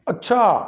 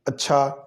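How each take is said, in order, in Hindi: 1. यह हैरानी और आश्चर्य वाले लहजे में कहा गया है। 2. यह खुशी और मंज़ूरी वाले लहजे में कहा गया है। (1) "ये है हैरानी की तरफ लेके जाने वाला काम" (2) "ये अच्छा जो है ना ये है गुड"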